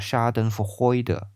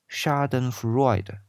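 First: The word is pronounced with a German accent. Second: The word is pronounced with an English accent. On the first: "德语发音叫Schadenfreude" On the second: "这是英语发音"

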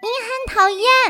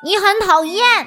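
First: It is said in a mocking, weird voice. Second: It is said in a plain, normal voice.

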